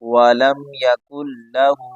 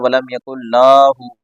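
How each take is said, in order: First: The first vowel of lahu is kept short. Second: The first vowel of lahu is drawn out long. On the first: The speaker calls it right. "तो ये सही तरीका ये है" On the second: The speaker calls it wrong. "नाम को बड़ा कर देते हैं।"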